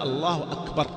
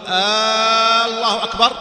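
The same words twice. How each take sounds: First: The opening vowel is short with a clear glottal stop. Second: The opening vowel is stretched into a question form. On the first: It states that God is greatest. The speaker calls it right. "حقق الهمزة، قل الله أكبر" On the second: It asks whether God is great. The speaker calls it wrong. "لأنه استفهام، هل الله كبير؟"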